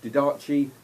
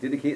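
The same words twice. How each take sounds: First: It is sounded out letter by letter. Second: It is said the usual, accepted way. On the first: The speaker calls it wrong. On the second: The speaker calls it right.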